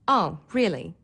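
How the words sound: The voice sounds bored, with flat, low pitch. The listener is not interested. "or boredom"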